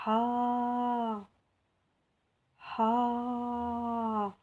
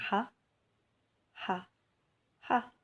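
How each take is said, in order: First: "ha" with the A held long and level, higher; long vowel. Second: "Ha" with a short, quick A; short vowel. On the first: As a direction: stretch out the A of "ha" on a sustained note. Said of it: "la prolongation avec l'alef". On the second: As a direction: cut the A in "Ha" short. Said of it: "on va voir les voyelles courtes". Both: Shown as a demonstration.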